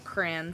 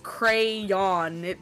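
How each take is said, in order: First: The middle y sound is dropped. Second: The middle y sound is pronounced. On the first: The speaker calls it wrong. "where'd the Y go? I hate people that say crayon" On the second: The speaker calls it right. "but it's crayon"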